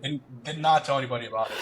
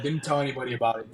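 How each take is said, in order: First: "did not" said in full, NOT as the peak; emphatic NOT, contraction opened up; stress on NOT. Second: Said in the usual way. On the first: Real, not acted. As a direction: spell out "did not", leaning on NOT. Restates with full word not.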